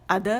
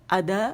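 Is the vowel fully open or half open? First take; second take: fully open; fully open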